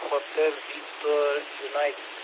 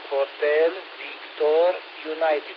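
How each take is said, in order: First: It is said at a normal, quicker pace. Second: It is said slowly and more clearly.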